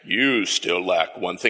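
It is said in a deep Darth Vader voice.

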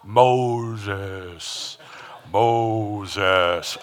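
It is said in a grand movie-God voice.

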